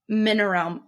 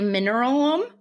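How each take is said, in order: First: The name ends with a 'realm' sound. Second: The name ends with a 'lum' sound. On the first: The speaker calls it right. "Like realm" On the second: The speaker calls it wrong. "My brain keeps wanting to say mineralum"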